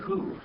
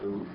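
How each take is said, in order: First: The word begins with an h sound. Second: The word begins with no h sound. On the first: The speaker calls it wrong. "Otherwise it'd be who" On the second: The speaker calls it right. "a smooth breathing on that, so we need to say ooh"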